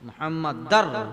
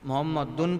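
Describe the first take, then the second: First: The word ends in -ar, linked to the next word. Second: The word ends in a separate -dun syllable. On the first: The speaker calls it right. "यहाँ ज़बर आया" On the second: The speaker calls it wrong. "वरना कोई आकर मोहम्मद दुन पढ़ता है"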